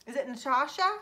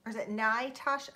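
First: Natasha with a short a, nuh-TAH-sha, rising like a question; pronunciation try. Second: Natasha with a long i, nye-TAH-sha; pronunciation try. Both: Shown as a demonstration.

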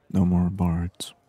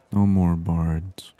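The two takes are said the same way.

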